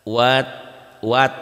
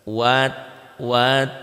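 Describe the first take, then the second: Both takes have the same delivery.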